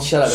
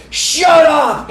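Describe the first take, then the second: First: Said in the usual way. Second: Sudden high, loud yell of shut up; a drunk guy yelling at a little girl. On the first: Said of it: "He, like, yelled". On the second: Retold or imitated. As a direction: bark it like a drunk losing his temper. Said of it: "he goes".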